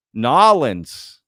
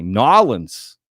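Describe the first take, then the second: First: Nolans as two quick syllables, NAH-lunz; a proud New Orleans local saying Nolans. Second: Nolans said loud as NAH-lunz; local Nolans again. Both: Shown as a demonstration. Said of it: "You gotta say it like that".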